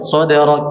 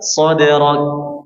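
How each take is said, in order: First: The final k is held without a breath release. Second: The final k is released with audible breath. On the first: The speaker calls it wrong. "Ini kita nggak lepas nggak nggak akan ada" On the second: The speaker calls it right. "Harusnya gimana dilepas?"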